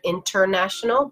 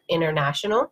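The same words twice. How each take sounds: First: The T after the N is clearly pronounced. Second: The T after the N is dropped. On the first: "So instead of international" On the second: "but international"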